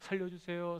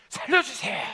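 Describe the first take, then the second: First: It is said quietly and calmly. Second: It is shouted loudly.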